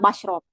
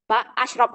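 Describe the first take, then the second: First: The prefix runs straight into the verb, merged. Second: The prefix and verb are said as separate parts. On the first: "ketika di Amniah si alif itu nggak dibaca, jadi langsung diseret aja ke sin" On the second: "ini sebenarnya ada ba alif, ba hamzah itu loh"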